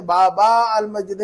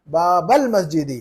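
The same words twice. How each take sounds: First: बाबा अल मस्जिद with long aa; drawn बाबा, then separate al; unjoined wrong reading. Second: Slow, linked बाबल मस्जिदी with short "bal"; measured बाबल, no long final aa; alif not stretched. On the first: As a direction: hold बाबा apart from अल. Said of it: "नहीं पढ़ेंगे". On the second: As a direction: model बाबल मस्जिदी slowly as one phrase. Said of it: "अलिफ नहीं खींचेंगे". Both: Shown as a demonstration.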